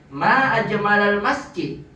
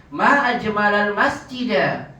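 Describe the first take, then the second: No difference in how they are said.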